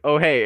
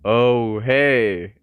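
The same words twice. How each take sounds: First: The phrase is said quickly with a short gap. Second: The phrase is said slowly with a longer gap. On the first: The speaker calls it wrong. "I would still mess up" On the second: The speaker calls it right. "The guy talked slower than I did"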